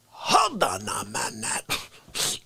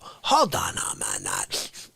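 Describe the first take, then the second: First: Slow, low mob boss opener; mobster voice. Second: Slow, low menacing mob boss; mobster voice. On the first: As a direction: drag it out like a don. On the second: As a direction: lean back and growl it like a godfather. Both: Acted. Mobster-style comic monologue opening.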